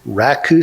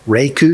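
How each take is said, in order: First: The first syllable sounds like 'rah'. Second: The first syllable sounds like 'ray'. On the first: "pronounce the language name as Raku sometimes" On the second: "Reiku sometimes"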